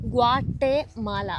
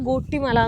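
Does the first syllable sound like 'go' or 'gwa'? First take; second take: gwa; go. First: The word begins with a 'gwa' sound. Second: The word begins with a 'go' sound. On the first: The speaker calls it right. "അങ്ങനെയാണ് ശരിക്കും pronunciation" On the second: The speaker calls it wrong. "കുറെ പേര് ഗോട്ടിമല ഗോട്ടിമല എന്ന് പറയുന്നുണ്ട്"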